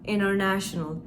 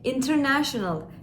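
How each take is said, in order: First: The t after the n is dropped. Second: The t after the n is clearly pronounced. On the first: The speaker calls it right. "aslında international şeklinde telaffuz ediyoruz" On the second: The speaker calls it wrong. "birçok kişi international diye okuyabilir"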